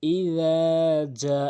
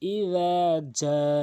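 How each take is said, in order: The two takes are said the same way.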